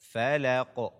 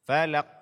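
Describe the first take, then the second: First: The final q ends with an echoing bounce. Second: The final q ends flat with no bounce. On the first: The speaker calls it right. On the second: The speaker calls it wrong.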